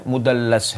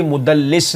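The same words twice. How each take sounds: First: مدلس with a short a in the last syllable, "mudallas"; corrected vowel, mudallas. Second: مدلس with a short i in the last syllable, "mudallis"; rejected vowel, mudallis. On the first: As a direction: drop low and soft on مدلس, ending in "las". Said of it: "مدلس ہے". (مدلس کے لام پر زبر، "مُدَلَّس") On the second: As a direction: slowly say مدلس ending in "lis". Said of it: "یہاں بھی مدلس نہیں ہے". (مدلس کے لام کے نیچے زیر، "مُدَلِّس") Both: Shown as a demonstration.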